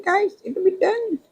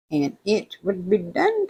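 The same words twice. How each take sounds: First: "It would be done" in a much higher, squeaky voice; squeaky high repeat. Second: Said in the usual way. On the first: Real, not acted. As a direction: jump way up for the repeat.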